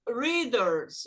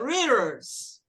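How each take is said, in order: First: The middle consonant is a clear d sound. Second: The middle consonant is a quick tapped r. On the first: This is how most of the world says it. "o mundo fala readers" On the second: This is the American way of saying it. "a letra tem um som de R. Então vai ficar readers"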